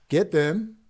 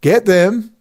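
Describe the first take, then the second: First: Pulled back to a softer voice; quieter. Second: Louder, higher, pushing it out defiantly; loud again. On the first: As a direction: catch yourself and drop the volume. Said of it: "oops, sorry, I'm talking too loud". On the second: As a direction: say it loud on purpose. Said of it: "Yes, I'm talking very loud". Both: Real, not acted.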